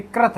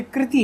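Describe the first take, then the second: First: कृत as "krat"; contrast demo. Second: कृति as "kriti"; contrast demo. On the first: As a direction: say कृत with a short "a". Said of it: "ये कृत है". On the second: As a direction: say कृति with a clear "kri". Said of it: "ये कृति है". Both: Shown as a demonstration.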